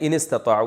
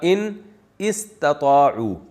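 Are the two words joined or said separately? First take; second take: joined; separate. First: The two words are run together. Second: The two words are said separately. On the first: This is how it is recited. "तो मिला के पढ़ा दिया" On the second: This is the underlying form. "असल में था"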